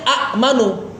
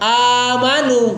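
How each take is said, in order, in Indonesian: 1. Vokal pendek diikuti hamzah. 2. Vokal pertama dibaca panjang. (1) "tulisan aslinya amanu" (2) "Sebenarnya cara bacanya amanu"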